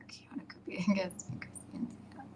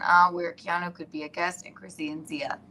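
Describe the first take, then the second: First: Whispered reading. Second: Said in the usual way. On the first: Real, not acted. Reading a comment under breath.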